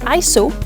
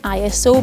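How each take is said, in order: First: It is said as one word, eye-so. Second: It is spelled out as three letters. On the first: The speaker calls it right. "it should actually be said" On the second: The speaker calls it wrong. "rather than"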